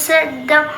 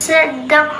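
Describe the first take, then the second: Both takes have the same delivery.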